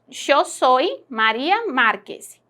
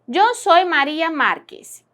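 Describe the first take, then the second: First: Yo starts with a sound like English sh. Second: Yo starts with a sound like English y.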